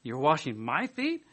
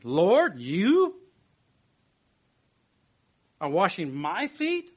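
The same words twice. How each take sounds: First: Slow, disbelieving rise on feet; incredulous Peter. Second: Slow, incredulous question rising on feet; surprised Peter. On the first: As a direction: Peter staring down at Jesus. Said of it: "was Peter's attitude". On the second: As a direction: stretch it out in disbelief. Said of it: "Peter's surprised question". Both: Retold or imitated.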